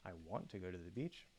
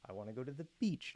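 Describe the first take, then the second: First: The word want carries the main stress. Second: The word beach carries the main stress. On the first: The wish is there but it may not happen. "but I don't know if I can" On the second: The beach is chosen over another place. "not the park. Okay, that's specifying, you know, some sort of comparison"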